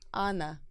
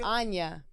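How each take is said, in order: First: The name is said with a plain 'n' sound. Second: The name is said with a 'ny' sound. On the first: The speaker calls it right. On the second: The speaker calls it wrong.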